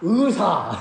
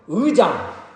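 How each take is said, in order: First: It is said in a Jeolla accent. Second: It is said in a standard accent. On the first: The speaker cannot produce the sound properly. The speaker calls it wrong. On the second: This is the word as it should be. The speaker calls it right.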